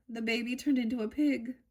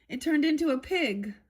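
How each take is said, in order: First: Said in the usual way. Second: Emphatic reveal. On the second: Acted. Alice answers the cat, reading.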